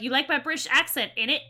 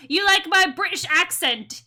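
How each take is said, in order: First: Put-on cheeky British accent ending in innit; lightly hammed-up British accent; mock British slang accent. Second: High-pitched hammed-up British accent; playful put-on British lilt, pitched up; mock British accent. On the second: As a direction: tease with an exaggerated British accent. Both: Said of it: "It should be like".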